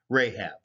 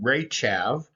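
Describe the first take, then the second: First: The name is said in local Semitic pronunciation. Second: The name is said in its Hebrew pronunciation. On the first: "the local Semitic pronunciation of that area probably had it closer to" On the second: "in the Hebrew"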